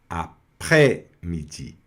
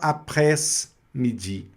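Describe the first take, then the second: First: The s sound is left silent. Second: The s sound is pronounced. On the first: The speaker calls it right. "engoliu o S" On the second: The speaker calls it wrong. "você não vai falar"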